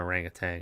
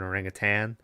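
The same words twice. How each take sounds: First: The word ends with a 'tang' sound. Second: The word ends with a 'tan' sound. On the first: The speaker calls it wrong. "I've always called it a tang" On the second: The speaker calls it right. "It's an orangutan"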